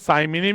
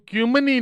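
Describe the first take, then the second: First: The word begins with a 'sai' sound. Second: The word begins with a 'kyoo' sound. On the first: Some people read it this way. "अब कई जने इसको साइमिनी भी पढ़ेंगे" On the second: This is the pronunciation found in sources. "Actual में मैंने इसके प्रोनाउंसिएशन जानने की कोशिश की तो क्यूमिनी निकला"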